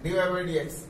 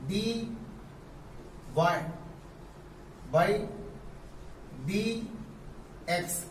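First: Said in the usual way. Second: Each symbol on its own with long pauses; teacher spelling out d y by d x; slow spelled-out reading. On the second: Shown as a demonstration. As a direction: dictate it slowly. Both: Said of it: "ऐसे पढ़ते हैं".

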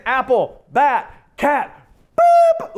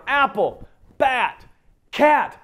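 First: Climbing higher and louder to a squeaky boop; sing-song build. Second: Building expectation. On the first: Parent running the ABC list, ending in a high, loud squeak. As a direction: bounce through the list, pop the last word. Parent expecting dog, cut off. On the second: Listener guessing the pattern. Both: Retold or imitated.

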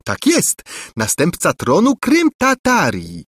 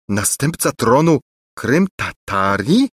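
First: High, teasing echo of his words; mocking repeat. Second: Slow, struggling to get the words out; choked out. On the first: Angelika mockingly echoes the prince's words, high and teasing. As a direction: parrot him back mockingly. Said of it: "przedrzeźniając dalej biednego Lulejkę". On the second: The stunned prince repeats the title, slow and halting. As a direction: force it out haltingly. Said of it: "wykrztusił z trudem Lulejka". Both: A narrator's reading.

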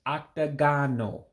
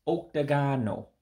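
First: Octagonal said ahk-tah-GAH-noh, opening on ah; mistaken pronunciation. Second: Octagonal said ohk-tah-GAH-noh, opening on oh; corrected pronunciation. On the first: Teacher giving learners the Igbo for octagon, mistaken first vowel. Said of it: "I said it incorrectly". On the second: Teacher correcting own slip for learners, corrected pronunciation. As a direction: say octagonal as oke-ta-gah-no, with a round first vowel. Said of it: "I said it incorrectly. It's". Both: Shown as a demonstration.

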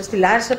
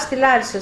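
First: «Στη Λάρισα; » echoed back as a question, rising at the end. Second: «Στη Λάρισα» said as a plain statement, falling at the end; flat statement. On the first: Incredulous echo of the destination. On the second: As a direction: state «Λάρισα» firmly, pitch dropping at the end. Announces leaving, then echoed question. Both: Retold or imitated.

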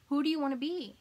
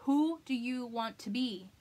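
First: Higher and louder on the repeat; pressed repeat. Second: Slow, measured ask; slow question. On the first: To viewers, repeats it higher and louder. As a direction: push the question home. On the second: To viewers, asks slowly who they want to be. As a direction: let the question sit, slowly. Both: Shown as a demonstration.

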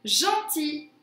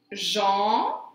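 First: Said in the usual way. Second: "Gentil" split into a drawn-out gen, pause, ti; syllable by syllable. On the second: Shown as a demonstration. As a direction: stretch each syllable of "Gentil" separately. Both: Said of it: "sur la deuxième syllabe".

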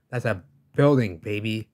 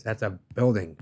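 First: Louder, emphatic repeat of That's a building; louder insistence. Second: Said in the usual way. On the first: Real, not acted. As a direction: hammer the point home, louder.

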